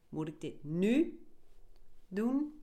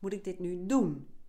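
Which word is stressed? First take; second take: nu; doen. First: The stress is on the word nu. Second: The stress is on the word doen.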